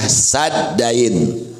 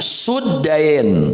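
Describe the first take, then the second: First: The first syllable has an 'a' vowel. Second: The first syllable has a 'u' vowel. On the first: "dibacanya dengan difathahkan sinnya" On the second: "bisa didomahkan sinnya"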